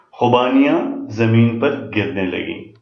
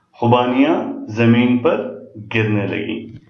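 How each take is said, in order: The two takes are said the same way.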